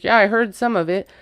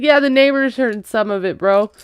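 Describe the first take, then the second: First: Said in the usual way. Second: Teasing punchline. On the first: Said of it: "He's like". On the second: Retold or imitated. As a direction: toss it off like a smirking cousin.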